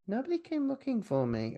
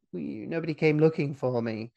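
First: High, soft mock complaint; mock plaintive. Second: Said in the usual way. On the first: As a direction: whine it softly in a raised pitch. Repeats character's line in put-on voice. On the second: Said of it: "does he at this point say".

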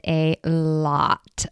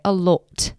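First: Said in the usual way. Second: Put-on "lot" in a playful British accent; mock British accent. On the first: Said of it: "or should I say". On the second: Host joking about watching The Crown, mock British accent. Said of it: "my British accent, by the way".

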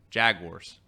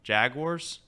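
First: "Jaguars." said jag-wars, lower and falling; "Jaguars." spoken jag-wars, settled. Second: "Jaguars?" said jag-wars, rising; "Jaguars?" spoken as two syllables, jag-wars. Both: Shown as a demonstration. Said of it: "That sounds terrible".

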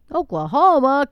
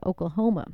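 First: Incredulous, louder and higher; can't believe it's Oklahoma; a loud, disbelieving "Oklahoma?"; surprised. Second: Said in the usual way. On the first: Real, not acted. Disbelief at neighbor state.

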